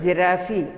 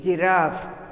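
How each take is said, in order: First: "giraffe" wrongly ending in a sounded -ee; "giraffe" misread with its final e voiced; common mispronunciation. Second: "giraffe" ending cleanly on the f; "giraffe" with the final e silent; correct pronunciation. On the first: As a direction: say "giraffe" as three syllables, ji-RA-fee. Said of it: "Most of the students pronounce". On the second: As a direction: say "giraffe" as two syllables, ji-RAAF. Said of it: "it is giraffe". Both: Shown as a demonstration.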